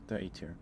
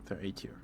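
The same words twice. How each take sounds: The two takes are said the same way.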